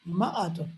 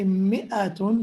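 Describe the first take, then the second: First: The first syllable has an 'a' vowel. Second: The first syllable has an 'i' vowel. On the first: "the fatha on the mim" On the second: "they don't say mi'atun"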